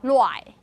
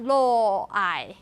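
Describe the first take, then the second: First: Luai run together as one syllable; contracted form. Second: Lo-ai split into two slow syllables; lo-ai said very slowly as two separate syllables; wrong syllabified form. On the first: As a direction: glide luai smoothly into one beat. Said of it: "It become". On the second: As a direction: break lo-ai apart slowly into lo and ai. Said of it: "it's not". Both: Shown as a demonstration.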